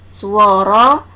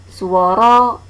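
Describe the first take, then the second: The two takes are said the same way.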